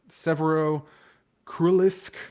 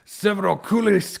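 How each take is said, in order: First: It is said in the speaker's ordinary accent. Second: It is said with a put-on Russian accent.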